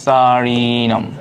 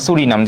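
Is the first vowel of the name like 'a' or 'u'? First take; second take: a; u. First: The first vowel sounds like 'a'. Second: The first vowel sounds like 'u'. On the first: "সারিনামটাই সুন্দর" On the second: "যে যেটা উচ্চারণ করে"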